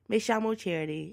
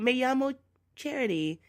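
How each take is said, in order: First: The ll is said with a zh sound. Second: The ll is said with a y sound.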